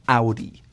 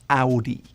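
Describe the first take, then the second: First: It is said the German way. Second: It is said the German way.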